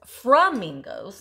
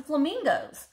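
First: "flamingos" said as "frummingos", drawn out slowly; dad's pronunciation. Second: Said in the usual way. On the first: Retold or imitated. Showing flamingo shakers and borrowing dad's word, "flamingos" slowly said as "frummingos". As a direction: say "flamingos" with fr for fl: "frum-mingos". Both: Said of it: "or as my dad says".

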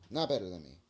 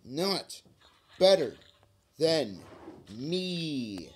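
First: Said in the usual way. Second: Not, better, than, me spaced out, better hit higher and loud; drawn-out mocking chant, each word its own beat; slow taunt. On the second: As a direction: spit out "Not better than me" one word at a time, punching better.

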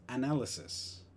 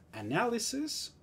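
First: Análisis con final es, como analyses; plural inglés. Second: Análisis con final is; singular inglés. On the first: (análisis plural en inglés) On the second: (análisis singular en inglés) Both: Shown as a demonstration. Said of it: "el plural va a ser con es".

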